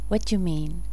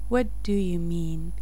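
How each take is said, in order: First: It is said quickly with 'do' dropped. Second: Every word, including 'do', is clearly pronounced.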